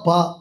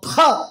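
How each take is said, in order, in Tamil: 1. 'p' மூச்சு இல்லாமல், சாதாரணமாக சொல்லப்படுகிறது. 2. 'p' மூச்சுக் காற்றின் ஒரு வெளிப்பாட்டுடன் சொல்லப்படுகிறது. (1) "முதல்ல சொன்னா பா" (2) "ரெண்டாவது சொன்னா பா"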